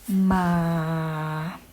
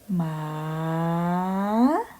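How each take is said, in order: First: The pitch stays low throughout the word. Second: The pitch dips low then rises upward. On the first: "change the tone to low tone" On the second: "rising tone"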